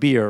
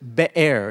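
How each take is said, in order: First: It is said like the English word beer. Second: It is said unlike the English word beer. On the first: The speaker calls it wrong. "It looks like beer" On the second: The speaker calls it right. "But Be'er is what it is"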